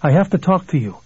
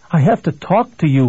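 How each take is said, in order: First: Mildly raised, insistent voice; an understated shout; shouting back. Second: Mildly desperate plea; a touch of desperation, slightly raised. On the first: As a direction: call it through a closed door. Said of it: "Billy shouted back". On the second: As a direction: plead urgently through a closed door. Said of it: "Billy said desperately". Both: A narrator's reading.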